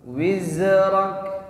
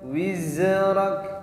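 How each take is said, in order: First: The middle consonant is a flowing z sound. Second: The middle consonant is a flowing z sound.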